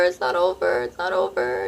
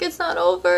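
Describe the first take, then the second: First: Low, fading, put-on repeat; low pleading. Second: High, desperate first plea; high pleading. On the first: Begging her ex again: low, fading, put-on plea. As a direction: drop low and let it fade. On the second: Retold or imitated. Begging her ex not to end it: high, desperate plea. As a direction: pitch it up, begging him.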